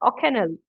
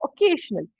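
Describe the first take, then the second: First: The word is said with garbled, distorted sounds. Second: The word is said with its standard sounds. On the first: Listeners cannot recognize the intended word. The speaker calls it wrong. "But I don't know how to pronounce it. I'm saying occasionally" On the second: This is the word the speaker intends to say. The speaker calls it right. "I want to say this"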